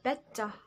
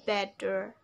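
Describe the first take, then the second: First: It is said with a British accent. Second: It is said with an American accent.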